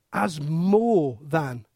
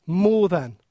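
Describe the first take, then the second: First: "more than" drawn out, low and soft; slow emphasis. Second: Said in the usual way. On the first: Shown as a demonstration. Preacher stressing Jesus is greater, slow low "more than". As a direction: lean slowly into "more than".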